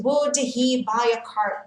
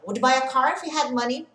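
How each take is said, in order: First: "would he buy a car" with every word separate and the H sounded; deliberately unlinked "would he"; careful, H pronounced. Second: "Would he buy a car if he had money?" run together fast, H dropped; native-speed linking, "wud i ba ak ar"; fast, linked speech. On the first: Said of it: "ninguém vai falar assim com você". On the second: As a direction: rattle off "Would he buy a car" as one blur. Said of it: "É isso que você vai ouvir". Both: Shown as a demonstration.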